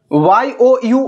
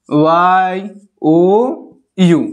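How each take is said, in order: First: Said in the usual way. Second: ওয়াই, ও, ইউ with a long pause after each; each letter of ওয়াই ও ইউ held separately; spelled letter by letter. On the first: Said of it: "আমরা ইউ পড়ি তো". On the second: Shown as a demonstration. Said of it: "উচ্চারণটা এই রকম system".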